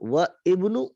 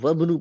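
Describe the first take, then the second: First: The words are separate, with the alif pronounced. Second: The words are joined, with the alif silent. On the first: The speaker calls it wrong. "अब ये व इब्नु नहीं" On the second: The speaker calls it right. "इसको वबनु पढ़ेंगे"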